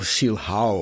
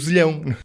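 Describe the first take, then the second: First: The name is said in an English way. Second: The name is said in a Portuguese way. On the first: The speaker calls it wrong. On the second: The speaker calls it right.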